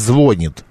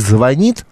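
First: The stress is on the first syllable. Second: The stress is on the second syllable. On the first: This is the form that will soon be allowed. "а «звонит»" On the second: This is the established standard form. "будет разрешено говорить не «звонит»"

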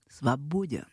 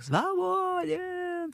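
First: It sounds dismissive and contemptuous, like sending someone away. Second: It sounds elated and free, like shouting on a mountain.

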